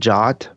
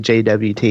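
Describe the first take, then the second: First: It is said as one short word. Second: It is said as three separate letters. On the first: "some people pronounce it J O T" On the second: "I prefer to just say J W T"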